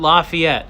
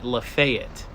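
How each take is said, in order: First: It is said the standard, non-Southern way. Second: It is said the northern Georgia Southern way.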